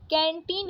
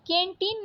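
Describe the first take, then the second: First: Said in the usual way. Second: कैंटीन said "ken-tin", closed e; wrong vowel. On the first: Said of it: "कैंटीन होता है". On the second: Shown as a demonstration. Teacher rejecting a spelling, कैंटीन with plain e. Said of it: "कैंटीन नहीं".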